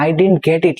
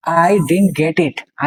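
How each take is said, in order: First: Said in the usual way. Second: "I didn't get it" spaced out very slowly, word by word; teacher spelling out "I didn't get it" slowly for the class; slow model. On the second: Shown as a demonstration.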